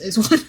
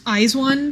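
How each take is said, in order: First: It is said with the common English pronunciation. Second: It is said with the official pronunciation. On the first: "the only one people use in English is IZ*ONE" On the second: "I think the official pronunciation is IZ*ONE"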